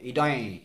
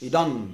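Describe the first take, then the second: First: The word ends in a nasalized vowel. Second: The final n touches the tongue to teeth. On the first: "ইয়ৰ ওপৰত চন্দ্ৰবিন্দু থকা নিচিনা হয়" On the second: "ন বুলি কওঁতে আমি দাঁতত লগাইছোঁ জিভাখন"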